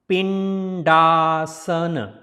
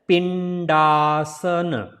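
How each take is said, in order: The two takes are said the same way.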